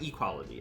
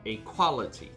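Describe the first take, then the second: First: The sounds run together as one word. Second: A and quality are said as separate words. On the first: Things being equal. "not equality" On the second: The film has high quality. "I did not say equality there"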